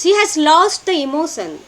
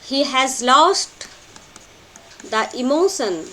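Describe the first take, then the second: First: Said in the usual way. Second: Slow and spaced for note-taking; slow dictation. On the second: Shown as a demonstration. Teacher slowly dictating a note to students. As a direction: spell it out slowly so students can write it. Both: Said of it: "Take these notes".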